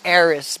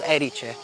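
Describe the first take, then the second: First: The name is read the English way. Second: The name is said the local way. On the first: The speaker calls it wrong. "You would read it in English Eris, but it's not like that" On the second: The speaker calls it right. "It's called Erice"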